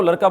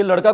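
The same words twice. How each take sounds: First: लड़का pronounced "laraka". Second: Said in the usual way. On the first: Retold or imitated. Teacher ruling out options, quotes लड़का with r. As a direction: put r for ड़ in लड़का. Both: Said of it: "ड के स्थान पर र".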